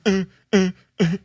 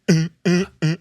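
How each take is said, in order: The two takes are said the same way.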